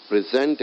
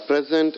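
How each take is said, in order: First: Pre-ZENT, as the verb; stress on second syllable. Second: PREZ-ent, as in a gift; stress on first syllable. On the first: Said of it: "gift it to someone". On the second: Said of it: "the gift". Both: Shown as a demonstration.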